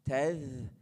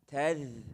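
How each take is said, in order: The two takes are said the same way.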